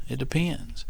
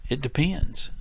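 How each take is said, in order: Both takes have the same delivery.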